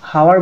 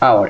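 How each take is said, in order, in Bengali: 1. শব্দটি h ধ্বনি দিয়ে শুরু হয়। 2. শব্দটি স্বরধ্বনি দিয়ে শুরু হয়।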